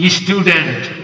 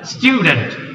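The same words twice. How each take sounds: First: It is said with a Bangladeshi English accent. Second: It is said with a British English accent. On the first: The speaker calls it wrong. "আপনারা বলেন কি স্টুডেন্ট পাওয়ার" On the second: The speaker calls it right. "তাদের উচ্চারণ অনেক সুন্দর।"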